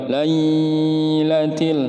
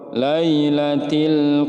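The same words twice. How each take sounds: First: The ya sound is held too long. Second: The ya sound is short and not held. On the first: The speaker calls it wrong. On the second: The speaker calls it right.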